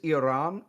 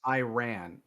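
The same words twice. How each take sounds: First: The word is pronounced in the standard way. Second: The word is pronounced in a hillbilly way. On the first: The speaker calls it right. "It is Iran" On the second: The speaker calls it wrong. "if you're a fucking hillbilly"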